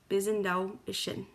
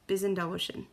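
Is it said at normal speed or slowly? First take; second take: slowly; normal speed. First: It is said slowly. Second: It is said at normal speed.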